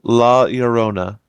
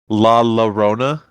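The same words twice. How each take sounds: First: The double L is said as a Y sound. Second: The double L is said as an L sound. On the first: The speaker calls it right. "two L's make like a Y sound" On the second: The speaker calls it wrong. "a lot of people say La Llorona, but that's not how you say it"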